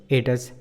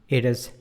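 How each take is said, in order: No difference in how they are said.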